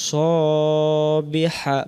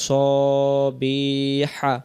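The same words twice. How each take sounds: The two takes are said the same way.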